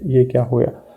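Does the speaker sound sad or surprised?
sad. It is said in a sad, dejected tone. Something unfortunate has happened. "अपने को sad feel करना है"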